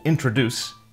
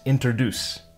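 First: The word begins with the sounds intro. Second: The word begins with the sounds inter.

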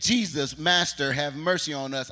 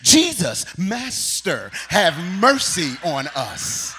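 First: It is read plainly, without drama. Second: It is read with Pastor London's dramatic theatrics.

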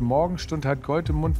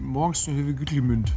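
First: It is spoken in plain standard German. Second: It is spoken with a mumbled Icelandic accent.

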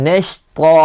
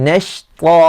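The two takes are said the same way.

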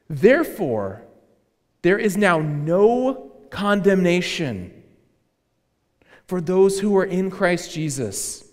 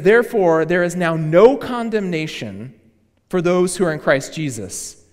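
First: It is read slowly and deliberately. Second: It is read at a normal pace.

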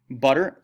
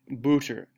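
First: The first vowel sounds like the vowel in 'cup'. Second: The first vowel sounds like the vowel in 'foot'.

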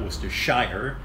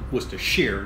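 First: The ending is said fully as 'shire'. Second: The ending is reduced to a short 'sher'. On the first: The speaker calls it wrong. "not Worcestershire" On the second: The speaker calls it right. "it's pronounced Worcestershire"

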